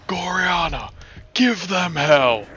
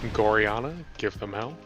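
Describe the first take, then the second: First: It is said in an intense, dramatic voice. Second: It is said flatly, without expression. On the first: "impression of how the voice actor does it" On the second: "the one monotone time I said it"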